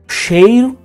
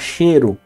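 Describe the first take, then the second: First: The vowel is a full diphthong 'ei'. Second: The vowel is a single plain 'e'. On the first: This is the form as written. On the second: This is the form in everyday speech.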